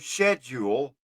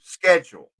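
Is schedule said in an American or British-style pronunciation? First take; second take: British; American. First: It is said in a British-style pronunciation. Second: It is said in an American-style pronunciation. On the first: It marks a non-American writer or speaker. "when you hear someone say schedule instead" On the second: It is the usual American form. "of schedule"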